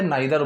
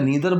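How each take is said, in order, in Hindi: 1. पहला स्वर 'eye' जैसा लगता है। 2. पहला स्वर 'ee' जैसा लगता है। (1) "both are acceptable in spoken English" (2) "नीदर बोलो या नाइदर बोलो, दोनों चलेगा"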